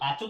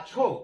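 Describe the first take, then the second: First: The middle consonant is unaspirated, a plain ch. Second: The middle consonant is aspirated, a breathy chh. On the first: The speaker calls it wrong. "আচো আচো আচো তো বলি না" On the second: The speaker calls it right. "এইভাবে লিখবে ভালো আছো"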